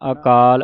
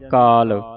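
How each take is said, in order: First: The opening 'a' vowel is pronounced. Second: The opening 'a' vowel is dropped. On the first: The speaker calls it right. "ਐੜਾ ਬੋਲ ਕੇ" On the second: The speaker calls it wrong. "ਆਪਾਂ ਪੜ ਜਾਂਦੇ ਕਾਲ, ... ਐੜਾ ਆਪਾਂ ਕੱਟ ਦਿੰਨੇ ਹਾਂ"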